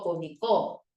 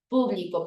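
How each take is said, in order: First: The stress is on the last syllable. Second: The stress is on the first syllable.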